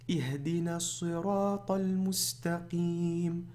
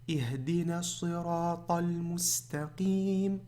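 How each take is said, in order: The two takes are said the same way.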